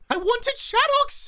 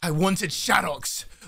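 First: The voice is very high-pitched. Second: The voice is pitched lower.

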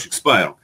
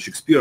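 First: The second syllable has an 'eye' vowel. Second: The second syllable has an 'ee' vowel. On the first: The speaker calls it right. "а Шекспайр" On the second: The speaker calls it wrong. "хотя на самом деле не Шекспир"

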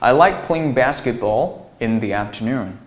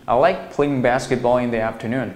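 First: The sentence is read slower, with phrase breaks. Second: The sentence is read faster, running phrases together. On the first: "这样读是不是很舒服呀？" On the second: "如果说你读得快一点也可以"

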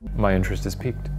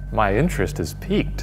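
First: It is said flat and deadpan. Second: It is said with more lively interest.

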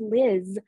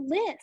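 First: The name ends with a buzzing 'z' sound. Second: The name ends with a hissing 's' sound. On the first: This is the standard pronunciation. "his friend Liz" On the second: This is how the child Billy says it. "but he calls her Liz"

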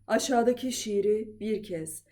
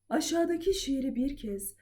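First: The voice is somewhat low in pitch. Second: The voice is slightly lower than the highest. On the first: "Biraz daha indirdim" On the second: "Bir tık kalınlaştırıyorum"

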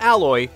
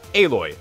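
First: The name sounds like the word alloy. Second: The name sounds like a-loy, unlike alloy. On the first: The speaker calls it wrong. "not Alloy" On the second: The speaker calls it right. "You get to play as Aloy"

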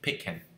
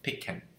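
First: 'Them' is reduced to a short 'em'. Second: The same.

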